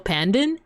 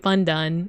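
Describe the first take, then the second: First: The name has a thick American-sounding vowel. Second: The name is said without the American-sounding vowel. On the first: The speaker calls it wrong. "I'm actually saying it wrong. ... I just have that thick American accent" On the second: The speaker calls it right. "It's supposed to be Pandan"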